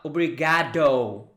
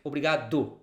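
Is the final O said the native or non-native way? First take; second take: non-native; native. First: The final O has a non-native, English-like sound. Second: The final O has a native Brazilian sound. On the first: The speaker calls it wrong. "not obrigado" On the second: The speaker calls it right. "It's like obrigado"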